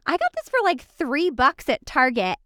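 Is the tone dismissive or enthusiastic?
enthusiastic. It sounds proud and enthusiastic.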